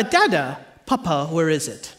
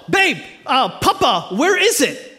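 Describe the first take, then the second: First: Put-on low, softened toddler question; lightly voiced little daughter. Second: Raised, mock-urgent call to his wife; retold yell. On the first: Toddler daughter asking dad for her pacifier, lightly voiced. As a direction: ask it lightly as a small child. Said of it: "she'll typically say". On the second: Husband calling wife about the missing pacifier, mock yell. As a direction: call out as if to another room. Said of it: "So I yell".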